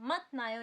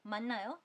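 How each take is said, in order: First: The first syllable ends in a t sound. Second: The first syllable ends in an n sound. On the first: The speaker calls it wrong. "इसको आप मत नायो नहीं पढ़ोगे" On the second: The speaker calls it right. "आप इसको पढ़ोगे 만나요"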